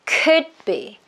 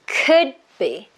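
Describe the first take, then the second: No difference in how they are said.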